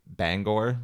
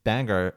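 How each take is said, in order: First: Bangor with a full GORE ending. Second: Bangor with a reduced -er ending. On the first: Co-host reminding her partner how to say it, Bangor as BANG-gore. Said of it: "we need to remember to say Bangor". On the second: Co-host contrasting the town here with there, Bangor as BANG-er. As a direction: say Bangor to rhyme with hanger. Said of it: "They pronounce it Bangor over there". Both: Shown as a demonstration.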